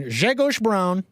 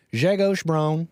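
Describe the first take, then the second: First: Grzegorz said as SHEH-koash, slow and higher; American pronunciation. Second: Said in the usual way. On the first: Shown as a demonstration. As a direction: say Grzegorz Braun with an American twang. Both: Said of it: "I'm going American with this one".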